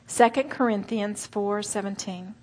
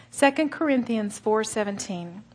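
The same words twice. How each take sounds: The two takes are said the same way.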